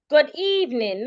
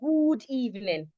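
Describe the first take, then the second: First: The vowel is short. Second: The vowel is long. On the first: The speaker calls it right. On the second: The speaker calls it wrong.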